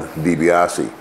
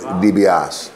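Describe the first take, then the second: First: The final vowel of the name is pronounced. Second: The final vowel of the name is dropped. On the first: "I grew up being called DiBiase" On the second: "the Italians would drop the, the vowel"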